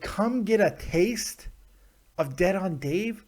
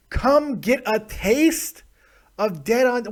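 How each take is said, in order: First: Slow mock read. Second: Higher, slower, mocking the tweet; high mock read. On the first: Host mocking a fan's tweet, slow mock read. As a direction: stretch it out slowly, mocking. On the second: Host mocking a fan's tweet, high slow mock. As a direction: pitch it up in disbelief. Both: Shown as a demonstration. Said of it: "That, that works".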